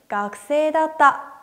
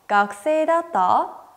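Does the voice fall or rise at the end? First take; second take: fall; rise. First: The pitch falls at the end. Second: The pitch rises at the end. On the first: It answers that someone was a student. "그대로 대답해서" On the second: It asks whether someone was a student. "억양만 바꿔서 학생이었다 라고 물어봤었죠"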